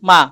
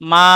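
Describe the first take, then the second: First: The vowel is short and cut off. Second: The vowel is drawn out long. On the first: "মা বলে শব্দ শেষ" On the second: "শব্দটাকে টান দিয়ে পড়ি"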